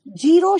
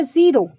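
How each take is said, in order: First: "जीरो" said with hard j as jiro; wrong j sound. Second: "ज़ीरो" with a clear z as ziro; correct z sound. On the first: Teacher marks the wrong English word, hard j. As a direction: say "जीरो" with j not z. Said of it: "जीरो शब्द गलत है". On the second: Teacher shows students the English word, clear z. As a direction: say "ज़ीरो" with a buzzing z. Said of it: "अंग्रेजी का शब्द है ज़ीरो". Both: Shown as a demonstration.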